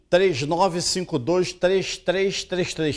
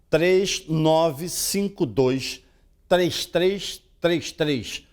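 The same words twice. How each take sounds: First: The number is said fast. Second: The number is said slowly.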